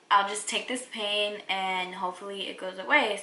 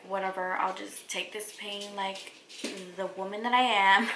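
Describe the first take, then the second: First: Said in the usual way. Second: Mock tough bravado. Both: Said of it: "I'm just kidding".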